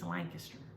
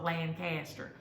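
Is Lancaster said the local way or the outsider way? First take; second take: local; outsider. First: Lancaster is said the local way. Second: Lancaster is said the outsider way. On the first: This is how people in the region say it. The speaker calls it right. "It's Lancaster" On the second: This is how outsiders say it. The speaker calls it wrong. "It's not Lancaster"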